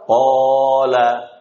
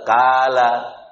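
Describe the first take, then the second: First: The first consonant is heavy and thick. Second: The first consonant is light and thin. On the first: The speaker calls it right. "Jadi tebal" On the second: The speaker calls it wrong. "Ada orang yang baca kala"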